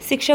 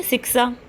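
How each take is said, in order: First: Said in the usual way. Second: "शिक्षा" with both sh sounds as s, "siksa"; regional pronunciation. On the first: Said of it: "शिक्षा को क्या बोल देंगे". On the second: Shown as a demonstration. Teacher showing local mispronunciation, "शिक्षा" said as siksa. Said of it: "क्या बोल देंगे".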